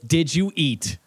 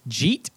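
First: Each of the three words is said separately. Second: The words are squeezed into one short syllable. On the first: "It is. It is" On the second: "I'm phrasing it as a question"

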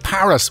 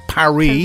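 First: It is said with an English pronunciation. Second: It is said with a French-style pronunciation. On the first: This is how people say it locally. The speaker calls it right. "It's like we say Paris" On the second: This is not how people say it locally. The speaker calls it wrong. "We don't say Paris"

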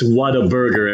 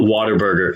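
First: It is said as three clear parts, what-a-burger. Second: It is said with 'water' as the first part. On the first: This is the real name of the restaurant. The speaker calls it right. "It's Whataburger" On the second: This is the mistaken idea of the name. The speaker calls it wrong. "they're not water burgers"

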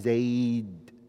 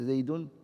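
First: The word ends on d with no vowel. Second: The word ends with an added -un. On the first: The speaker calls it right. "You stop, you just say Zayd" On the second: The speaker calls it wrong. "You don't say Zaydun"

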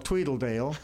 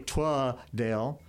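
First: An extra L syllable is added in the middle. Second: The first syllable's vowel is an A sound. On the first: "put an extra L" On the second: "pronounce both E's with an A"

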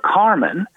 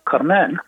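First: The stress is on the first syllable. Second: The stress is on the last syllable. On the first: This is the usual English way of saying the name. "we call her Carmen" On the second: This is the French way of saying the name. "so the accent is on the final syllable"

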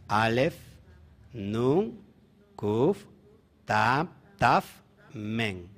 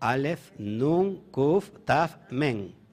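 First: The letters are said slowly. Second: The letters are said quickly.

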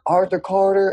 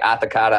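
First: The r sounds in the name are pronounced. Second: The r sounds in the name are dropped. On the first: The speaker calls it right. "pronounced properly was Arthur Carter" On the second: The speaker calls it wrong. "I think you said my name wrong"

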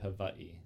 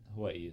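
First: The middle consonant sounds like a V. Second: The middle consonant sounds like a W. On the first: "It's technically Hawaii. The W is a V" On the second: "But Hawaii is also acceptable"

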